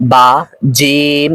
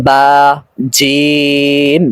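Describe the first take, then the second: First: "বা, জিম" with short vowels; name "বা" and "জিম" without stretching; wrong short reading. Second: "বা, জিম" with long held vowels; drawn-out correct reading. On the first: Teacher showing how not to read, "বা, জিম" kept short. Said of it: "এরকম না". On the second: Teacher modelling for learners, "বা, জিম" drawn out. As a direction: stretch "বা" and "জিম" slowly on a level tone. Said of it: "টান সহকারে আয়ত্ত করতে হবে". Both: Shown as a demonstration.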